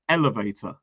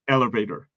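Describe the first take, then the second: First: It is said in a British accent. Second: It is said in an American accent.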